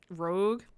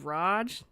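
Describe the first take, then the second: First: It has a long o and hard g. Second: It has a short ah and soft j. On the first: "I feel like I've been saying this wrong because I've been saying Rogue" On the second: "then I hear people say Raj"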